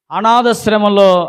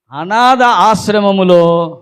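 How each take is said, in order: First: Said in the usual way. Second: అనాథ then ఆశ్రమములో as two slow words; split slowly. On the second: Shown as a demonstration. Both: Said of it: "ఒకసారి చెప్పండి".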